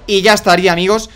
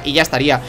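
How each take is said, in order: First: Louder, punchy victory line; proud gamer flourish; triumphant sign-off. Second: Said in the usual way. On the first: Shown as a demonstration. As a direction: announce the win to viewers.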